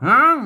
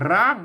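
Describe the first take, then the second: First: It is said with the Northern Thai pronunciation. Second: It is said with the standard Thai pronunciation. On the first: "ภาษาละนาเพิ่นออกเสียงว่าห้าง" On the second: "ภาษาไทยมันออกว่าร้าง"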